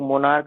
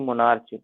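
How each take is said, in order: First: The word ends with a k sound. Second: The word ends with a ch sound. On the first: The speaker calls it right. "हम लोग मोनार्क कहते हैं" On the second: The speaker calls it wrong. "ना कि मोनार्च"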